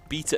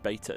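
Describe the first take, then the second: First: It is said in an English accent. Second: It is said in an American accent.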